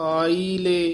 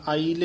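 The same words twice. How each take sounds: First: It is drawn out with a break between parts. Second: It is said as one joined word without break. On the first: The speaker calls it right. "ਇਸ ਤਰ੍ਹਾਂ ਬੋਲਣਾ, ਆਈ ਅਤੇ ਲੇ ਦੇ ਵਿੱਚ dash ਦੇ ਕੇ ਲਮਕਾ ਕੇ" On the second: The speaker calls it wrong. "ਇਕੱਠਾ ਨਹੀਂ ਕਹਿ ਦੇਣਾ"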